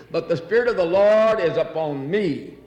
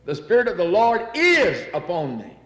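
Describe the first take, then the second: First: Spirit lifted, is said through; but the SPIRIT of the Lord is upon me; stress on spirit. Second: The Spirit of the Lord IS upon me, is pressed; weight on is to mean now; stress on is. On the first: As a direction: main weight on Spirit. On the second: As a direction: lean on the word is, upon me now. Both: Shown as a demonstration. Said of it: "Not was, not will be".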